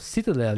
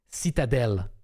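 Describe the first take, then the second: First: The T and D sounds blend smoothly together. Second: The T and D sounds are crisp and distinct. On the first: "But in English, it's more citadel. It's more flowing" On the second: "In French, it's more pronounced, the T and D"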